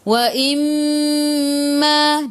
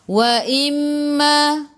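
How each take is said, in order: First: The m is held with a nasal hum. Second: The m is short with no nasal hum. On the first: The speaker calls it right. "kena dengung, wa imma dua harakat" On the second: The speaker calls it wrong. "kalau kita taklah dengung"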